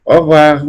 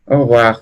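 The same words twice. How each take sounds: First: Au revoir said higher and louder, full and careful; emphatic model. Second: Au revoir run together fast, like o-wa; fast elided. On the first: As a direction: announce au revoir clearly for the class. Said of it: "esto se puede pronunciar au revoir". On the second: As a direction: say au revoir quickly, letting sounds drop. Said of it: "al momento de hablarlo rápido, pierde sonido". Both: Shown as a demonstration.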